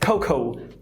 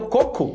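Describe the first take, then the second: First: The o vowels glide into an ou sound. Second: The o vowels are pure, without a glide. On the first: This is how a native English speaker says it. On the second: This is the native Portuguese pronunciation.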